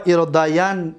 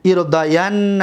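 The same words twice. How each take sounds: First: ارداین ending on a single vowelless n; light emphatic nun. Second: ارداین with a doubled n and final short a; heavy emphatic nun. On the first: Teacher reciting light-nun forms, ارداین said as irdayan. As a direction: stop ارداین on "-yan", no final a. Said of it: "با نون خفیفه". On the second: Teacher reciting heavy-nun forms, ارداین said as irdayanna. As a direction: lean on the double n in ارداین, then add "a". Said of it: "با نون توکید ثقیله". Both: Shown as a demonstration.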